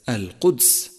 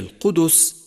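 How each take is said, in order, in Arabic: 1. لا يتبع حرف الدال أي حركة. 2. يتبع حرف الدال حركة الضمة. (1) "وليست القدس" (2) "فهي القدس"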